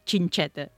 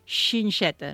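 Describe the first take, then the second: First: The x's are not said with a 'sh' sound. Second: The x's are said with a plain 'sh' sound. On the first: The speaker calls it wrong. "no gingeta" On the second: The speaker calls it right. "fer-la sonar amb aquest so de xix"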